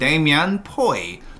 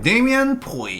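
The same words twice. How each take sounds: First: Both words are strong, with no falling pitch. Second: The pitch drops toward the end of the name.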